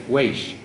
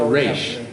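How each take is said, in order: First: "Weish" with a W sound in place of the R; mock "Weish" for Reish; R turned into W. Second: Said in the usual way. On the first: Shown as a demonstration. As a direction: say "Weish", swapping the R for a W. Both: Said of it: "they can't say".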